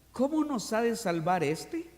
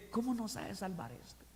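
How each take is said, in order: First: Said in the usual way. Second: Muttered aside. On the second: Retold or imitated. Preacher murmuring as the doubters in the crowd. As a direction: grumble it under your breath. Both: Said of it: "lo dicen en voz baja".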